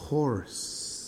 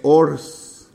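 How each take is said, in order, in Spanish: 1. La h al inicio se pronuncia. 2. La h al inicio es muda. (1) "Sí tiene sonido y suena como J" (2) "no es horse"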